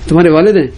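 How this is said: It is said with a threatening tone. The speaker warns they will tell the father. "دھمکی بھی ہو سکتی ہے کہ ابھی بتاؤں گا تمہارے ابا کو"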